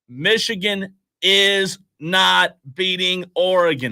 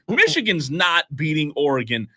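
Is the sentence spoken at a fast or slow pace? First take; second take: slow; fast. First: It is spoken slowly and deliberately. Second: It is spoken at a normal, quicker pace.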